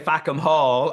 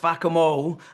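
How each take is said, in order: First: It is said in an Irish accent. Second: It is said in a Cockney accent. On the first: The joke in the name is lost. "it doesn't work in my accent because I'm Irish. So I say" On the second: The joke in the name becomes clear. "a Cockney guy comes along and says"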